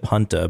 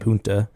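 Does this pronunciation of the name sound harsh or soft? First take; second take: harsh; soft. First: The name is pronounced in a harsh way. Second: The name is pronounced in a softer way. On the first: This is how the local people say it. "the people there said Punta, but I think that sounds really harsh" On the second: This is how visitors were saying it. "We were saying Punta"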